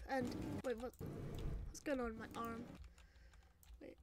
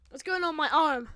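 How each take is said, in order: First: Low, soft puzzled question; quiet bewilderment. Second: Raised, alarmed question; loud alarm. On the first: Noticing something wrong with arm, quietly bewildered. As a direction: ask it under the voice, confused. First, muted reaction to arm. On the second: Finding something wrong with arm, loudly alarmed. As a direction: cry it out in dismay. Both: Acted.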